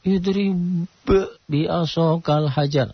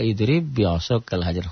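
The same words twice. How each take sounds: First: The first b is released separately with a bounce. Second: The first b merges into a doubled b. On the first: The speaker calls it wrong. "Kan kalau enggak tahu jadi" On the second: The speaker calls it right. "huruf sifat qalqalahnya jadi hilang"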